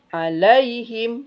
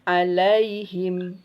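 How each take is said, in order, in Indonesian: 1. Bunyi 'ai' dihentakkan dengan kuat. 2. Bunyi 'ai' diucapkan dengan lembut dan halus. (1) "tidak boleh" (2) "tapi lembutkan"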